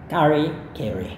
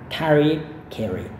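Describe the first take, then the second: The two takes are said the same way.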